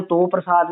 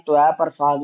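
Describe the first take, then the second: First: "ਤੋ" as toh; one long o in "ਤੋ"; o-vowel variant. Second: "ਤਵੈ" as to-ai, no v; "ਤਵੈ ਪ੍ਰਸਾਦ" as tu-ai prasaad; u-ai variant. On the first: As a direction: read "ਤੋ ਪ੍ਰਸਾਦ" as toh prasaad. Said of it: "ਤੋ ਪ੍ਰਸਾਦ ਵੀ ਪੜ੍ਹਦੇ". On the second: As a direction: run two vowels together in "ਤਵੈ". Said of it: "ਤਵੈ ਪ੍ਰਸਾਦ ਵੀ ਪੜ੍ਹਦੇ". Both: Shown as a demonstration.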